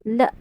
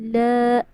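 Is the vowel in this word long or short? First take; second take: short; long. First: The vowel is cut short. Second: The vowel is held for two counts. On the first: It means certainly or indeed. "ला को टू counts अगर हम नहीं देंगे तो ये बन जाता है ल" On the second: It means no or not. "ला का मतलब है नहीं"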